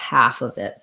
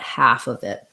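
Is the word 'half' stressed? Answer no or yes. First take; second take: yes; yes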